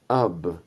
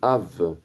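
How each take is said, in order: First: The word ends with a b sound. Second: The word ends with a v sound. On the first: The speaker calls it wrong. "on va lire ab" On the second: The speaker calls it right. "Il faudrait plutôt lire av"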